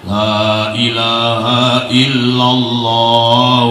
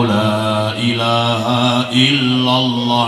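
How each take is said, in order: Both takes have the same delivery.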